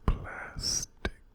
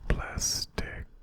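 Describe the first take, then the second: No difference in how they are said.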